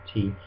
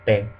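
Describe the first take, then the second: First: The T has a puff of air. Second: The T has no puff of air. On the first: "instead of uh, T" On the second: "it's not aspirated, so uh, we say te"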